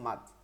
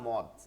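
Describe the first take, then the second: First: The vowel is an open 'a' sound. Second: The vowel is a short 'o' sound. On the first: The speaker calls it right. "বলবো মাদ" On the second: The speaker calls it wrong. "কখনো বলবেন না মদ, এই শব্দটা উ- মানে শুদ্ধ না"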